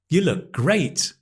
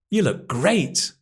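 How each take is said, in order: First: The word 'you' is unstressed and reduced. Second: The same.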